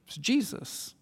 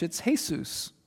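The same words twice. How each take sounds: First: Jesus said the English way, JEE-zus; Jesus with a soft J and a z; Jesus as JEE-zus, said quietly. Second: Jesus said the Spanish way, hay-SOOS; Jesus with an H sound and stress on the end; Jesus as hay-SOOS, said quietly. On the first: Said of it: "If you pronounce it in English". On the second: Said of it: "if you pronounce it in Spanish". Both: Shown as a demonstration.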